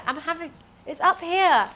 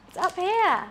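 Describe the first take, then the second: First: Higher, louder call to the cat; calling the cat, raised. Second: Much higher, sing-song coo at the cat; sing-song pet voice. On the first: Owner calls cat to the treat, raised call. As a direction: call the pet over to its treat. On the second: Owner coaxing cat upward, high sing-song coo. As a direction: coax the cat up in a sweet pet voice. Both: Real, not acted.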